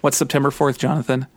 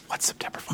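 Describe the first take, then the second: First: Said in the usual way. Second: Breathy stage whisper, much softer; hushed, barely voiced repeat. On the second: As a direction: whisper it like a secret.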